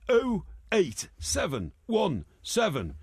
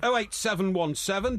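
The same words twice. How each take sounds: First: The number is read slowly. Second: The number is read quickly.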